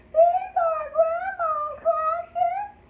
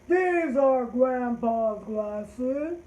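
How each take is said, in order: First: It is said in a high-pitched voice. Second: It is said in a deep voice.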